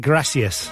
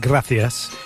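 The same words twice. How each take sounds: First: It has an 's' sound, as in Mexico. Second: It has a 'th' sound, as in Spain.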